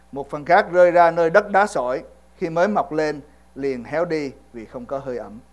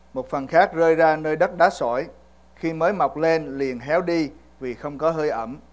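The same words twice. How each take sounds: The two takes are said the same way.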